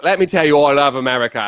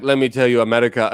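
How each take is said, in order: First: Put-on English accent sliding into Australian; attempted English accent. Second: Badly faked French accent; attempted French accent. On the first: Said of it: "If I met an English guy". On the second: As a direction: try a French accent and miss. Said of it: "if I met a French dude".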